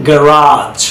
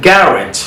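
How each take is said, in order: First: গ্যারাজ as "guh-RAAZH"; long stressed "aa" ending in গ্যারাজ; American end-stressed গ্যারাজ; American pronunciation. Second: গ্যারেজ as "GARR-idge"; British front-stressed গ্যারেজ; British pronunciation. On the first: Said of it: "কীভাবে আমেরিকানরা sound করে". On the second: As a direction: stress the first syllable of গ্যারেজ, short ending. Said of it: "কীভাবে ব্রিটিশে sound করে". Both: Shown as a demonstration.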